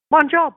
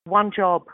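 First: One job repeated, higher and louder, with stress on One; emphatic repeat. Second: Said in the usual way. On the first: Retold or imitated. Telling young actors to keep going, One job stressed loud and high. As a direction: punch One job home the second time. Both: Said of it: "I'm like".

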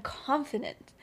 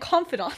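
First: Said in the usual way. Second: "confidant" with an open "ahnt" ending; corrected pronunciation. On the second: Real, not acted. Correcting a slip in James's speech, "confidant" ending in "ahnt". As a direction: say "confidant", full vowel on the last syllable.

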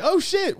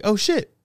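First: Hyped greeting. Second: A mild, half-surprised "Oh, shit" with a small lift at the end; startled oh shit. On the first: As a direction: greet her like you're thrilled to see her. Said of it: "kinda hyped". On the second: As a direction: let "shit" slip out under your breath, caught off guard. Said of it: "I was like". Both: Retold or imitated.

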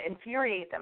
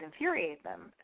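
First: Said in the usual way. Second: "infuriate" tripped over, hoarse; fumbling "infuriate" with a tired voice; stumbled word. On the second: Real, not acted. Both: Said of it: "I can't even speak".

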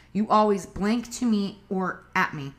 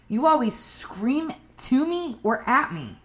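First: Said in the usual way. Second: Higher, blaming tone; accusing. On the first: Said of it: "compare the incorrect way versus a correct way". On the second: Shown as a demonstration. Showing partners the wrong, accusing way. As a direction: point the finger at them. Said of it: "That's incorrect".

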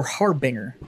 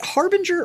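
First: Harbinger as two words, HAR-BINGER with no j; "banger" pronunciation. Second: Harbinger with a soft g, HAR-bin-jer; soft-g pronunciation. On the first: Offering the other brand-name option, Harbinger said hard-BANG-er. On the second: Asking lifting buddy the brand's name, Harbinger said HAR-bin-jer. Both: Shown as a demonstration. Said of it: "is it Harbinger or Harbinger?".

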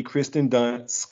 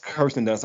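First: Kristen said as KRIS-ten, slow; misread name. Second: Kirsten said as KUR-sten; Kirsten fixed to KUR-sten, the first vowel like "her"; Kirsten corrected to KUR-sten; corrected name. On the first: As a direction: Kristen drawn out as KRIS-ten before the fix. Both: Shown as a demonstration.

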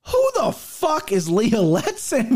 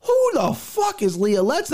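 First: Slow, drawn-out incredulous question; baffled disbelief. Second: High, rising outraged question; indignant disbelief. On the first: Recalling his reaction to the unknown underdog, slow stunned disbelief. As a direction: stretch it out like you can't believe the name. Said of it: "was what I said to myself". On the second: Retelling first seeing the fight line, high incredulous outburst. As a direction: throw it up high like it's absurd. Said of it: "I said". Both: Retold or imitated.

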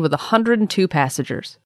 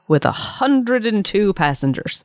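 First: Said in the usual way. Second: "hundred and two" drawn out slowly, then "passengers" dropping; stress on "hundred and two". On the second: Shown as a demonstration. Revealing the unchanged passenger count, slow weight on "hundred and two".

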